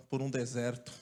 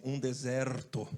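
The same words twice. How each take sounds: First: Said in the usual way. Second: Mock the brother's dramatic "Um deserto" by dragging it out; a slow, lamenting "Um deserto"; drawn-out deserto. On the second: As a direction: stretch "deserto" very slowly with heavy weight. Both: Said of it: "Não é deserto, ele falou assim".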